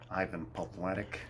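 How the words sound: The name is said with an American English accent.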